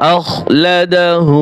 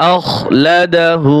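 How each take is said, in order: Both takes have the same delivery.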